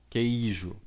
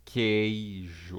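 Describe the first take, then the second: First: "queijo" with a full, separate i; "queijo" said the way it is not spoken; wrong pronunciation. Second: "queijo" with a light, weak glide i; "queijo" modeled as the teacher's own speech; correct pronunciation. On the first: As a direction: overpronounce the i in "queijo" as a whole vowel. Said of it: "eu não falo". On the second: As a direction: say "queijo" with a barely heard i after the e. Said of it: "tanto que eu falo". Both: Shown as a demonstration.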